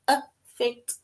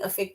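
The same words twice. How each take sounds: First: The word is said at a slow pace. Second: The word is said at a quick pace. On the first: "if you were to say it a bit slower" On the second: "if we just specifically say it"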